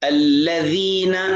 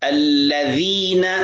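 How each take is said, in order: No difference in how they are said.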